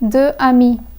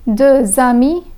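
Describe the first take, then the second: First: The x is silent before amis. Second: The x is sounded and linked to amis. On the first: The speaker calls it wrong. "and not as deux amis" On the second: The speaker calls it right. "would be read as deux amis"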